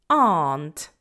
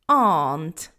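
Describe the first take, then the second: Both takes have the same delivery.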